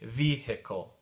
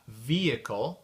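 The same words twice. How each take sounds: First: The h sound in the middle is pronounced. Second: The h sound in the middle is silent.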